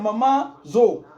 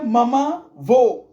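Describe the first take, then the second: First: The second word begins with a z sound. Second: The second word begins with a v sound. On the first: This is the correct form of the name. The speaker calls it right. "alors que c'est maman zo" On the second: A small child is mispronouncing the name. The speaker calls it wrong. "Ma fille disait maman vaut"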